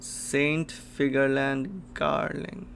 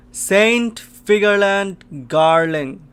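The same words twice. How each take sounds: First: Said in the usual way. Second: Loud, high, drawn-out exclamation; awestruck shout. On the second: Real, not acted. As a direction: shout the name slowly in astonishment. Astonished reveal of a character.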